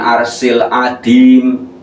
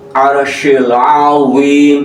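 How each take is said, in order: First: It has an s sound and a d sound. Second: It has an sh sound and a z sound. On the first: The speaker calls it wrong. "bukan arsil adim. Kalau dibaca arsil adim sudah banyak merubah huruf" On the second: The speaker calls it right.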